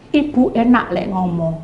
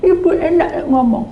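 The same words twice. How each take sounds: First: Said in the usual way. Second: Whimpering retort. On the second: Retold or imitated. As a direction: whine it through tears. (keluhan merengek setengah menangis) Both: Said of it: "Sama mewek-mewek".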